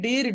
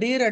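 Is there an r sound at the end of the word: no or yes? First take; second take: yes; yes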